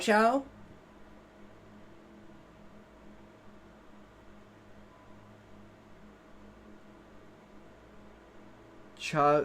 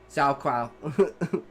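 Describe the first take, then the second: First: The second syllable begins with a 'ch' sound. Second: The second syllable begins with a 'kw' sound. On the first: The speaker calls it right. "Is that how it's actually pronounced?" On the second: The speaker calls it wrong. "I always pronounced it as like Zhao Kwao"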